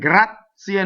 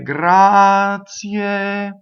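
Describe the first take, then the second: First: The z is a sharp ts with a stop. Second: The z flows smoothly into a glide. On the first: This is how it is said in ordinary speech. The speaker calls it wrong. "no, that's spoken" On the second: This is the elegant form used in singing. The speaker calls it right. "You have to connect"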